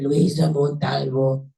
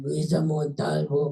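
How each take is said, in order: First: Slow, heavily drawn-out name; exaggerated victim imitation. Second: Slow, drawn-out retold name; dazed victim imitation. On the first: Rescuer imitating how the victim said her name, exaggerated and slow. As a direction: lay the name out slowly and emphatically. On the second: Crash victim giving her name to rescuer, dazed and slow. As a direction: imitate a groggy answer, stretching each word. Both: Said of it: "I don't talk like that".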